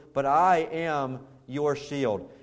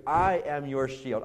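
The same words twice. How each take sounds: First: "I" leaned on, slow and weighty; stress on I. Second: Said in the usual way. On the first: Shown as a demonstration. Pastor voicing God to Abram, slow stress on "I". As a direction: land hard on the "I" in "but I am your shield". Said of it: "the emphasis ... was on the I". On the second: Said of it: "same line repeated later".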